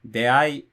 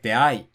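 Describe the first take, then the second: First: The pitch stays flat with no drop. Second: The pitch rises, then drops inside the word. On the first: This is the form that dictionaries list. "they all just say Heiban" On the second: This is the form heard recently in actual speech. "Nakataka, like Dei"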